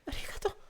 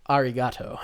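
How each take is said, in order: First: It is said quietly, like an anime girl. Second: It is said in his normal voice.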